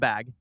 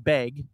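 First: The vowel sounds like the one in 'cat'. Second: The vowel sounds like the one in 'beg'. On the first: This is the standard way of saying it. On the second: This is the regional way the speaker grew up saying it.

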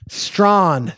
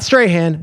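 First: The name is pronounced like 'Strawn'. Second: The name is pronounced like 'Strahan'. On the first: The speaker calls it right. "That's my guy" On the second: The speaker calls it wrong. "Not Strahan"

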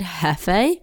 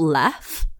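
First: The name begins with an H sound. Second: The name begins with an L sound. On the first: The speaker calls it wrong. "I've been calling it Hefe. It's definitely not" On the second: The speaker calls it right. "Apparently it's called Lef. Apparently it's an L"

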